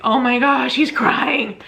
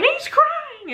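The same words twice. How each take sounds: First: Slightly lifted, retold surprise; relieved amazement. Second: Very high, squeaky happy wail; mock tearful. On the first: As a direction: react to your newborn's first cry. Reacting to baby's first cry. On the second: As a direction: squeal it as if bursting into tears. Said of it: "and then I'm crying".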